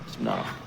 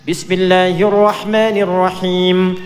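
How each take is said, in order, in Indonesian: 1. Diucapkan sangat pelan, hampir tanpa suara. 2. Diucapkan keras dan jelas dengan suara lantang.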